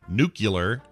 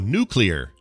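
First: The word is not said like 'new clear'. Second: The word is said like 'new clear'. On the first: The speaker calls it wrong. "instead of saying nuclear" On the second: The speaker calls it right. "You just go nuclear"

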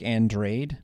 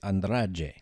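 First: The name is read as English spelling suggests. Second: The name is said in its native pronunciation. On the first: The speaker calls it wrong. "looks like Andrade" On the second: The speaker calls it right. "but is Andrade"

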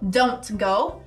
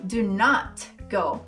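First: Not is contracted into a single word, don't. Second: Not is said fully as its own word. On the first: A neutral, ordinary request. "Tem a forma com a contração" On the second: The request is emphasized. "e tem a forma com a ênfase"

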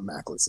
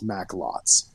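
First: The second syllable sounds like 'let'. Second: The second syllable sounds like 'lot'. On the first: The speaker calls it wrong. "It's not macklets" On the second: The speaker calls it right. "It's macklots"

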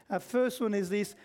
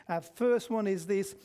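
No difference in how they are said.

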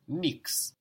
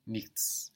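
First: The word ends with a plain 'ks' sound. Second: The word ends with a 'ch' then 'ts' sound. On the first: This is the casual everyday form. "you will hear in colloquial German, nix, like N-I-X" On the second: This is the full standard form. "but really nichts"

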